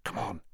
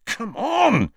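First: Hushed prompt to move; quiet murmur. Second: High, insistent urging; exasperated, high-pitched prod; impatient urging. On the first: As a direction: murmur it so nobody nearby hears. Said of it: "murmured Harry as quietly as possible". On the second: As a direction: push a reluctant friend along. Ron urging hesitant friend on. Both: A narrator's reading.

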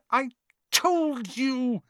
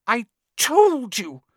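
First: Breathless repeat, TOLD stretched high; gasping, higher. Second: Put-on breathless high girl's voice; gasping, high and slow. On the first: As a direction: gasp the words out again, winded. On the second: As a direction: gasp it out, winded. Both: A narrator's reading. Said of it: "Hermione gasped".

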